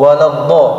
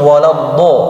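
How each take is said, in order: No difference in how they are said.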